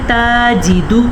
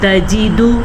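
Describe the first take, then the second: First: The first vowel is long, drawn out. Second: The first vowel is short, not drawn out. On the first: The speaker calls it wrong. "अब अक्सर लोग पढ़ते हैं ताजीदु, गलत।" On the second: The speaker calls it right. "किसी भी लफ्ज़ को हम लंबा नहीं कर सकते"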